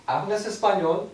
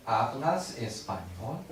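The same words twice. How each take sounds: First: "¿Hablas español?" at normal speed, higher, rising on español; natural question. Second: "¿Hablas español?" said slowly, with a rise on español; slow question. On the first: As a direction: ask it the way a native speaker would, higher. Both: Shown as a demonstration. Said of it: "I hear".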